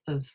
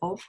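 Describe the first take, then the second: First: 'Of' has a weak schwa vowel. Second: 'Of' has a full, strong vowel. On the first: The speaker calls it right. "we say of" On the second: The speaker calls it wrong. "We don't say of"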